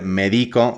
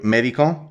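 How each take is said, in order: First: The stress is on the middle syllable. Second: The stress is on the first syllable. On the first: It says I medicate. "in each case, we're changing the position of the stressed syllable" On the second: It names a doctor. "in each case, we're changing the position of the stressed syllable"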